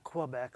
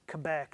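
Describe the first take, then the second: First: Quebec is said the Ohio way. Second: Quebec is said the local way. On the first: The speaker calls it wrong. "not Quebec, like we Ohioans pronounce it" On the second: The speaker calls it right. "I've just been taught today it's Quebec"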